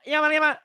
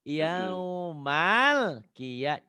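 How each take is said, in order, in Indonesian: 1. Diucapkan dengan cepat, huruf L-nya diburu-buru. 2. Diucapkan dengan tenang, huruf L-nya ditahan. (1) "Bapak selalu ngucapinnya gini" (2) "L-nya ditahan sedikit"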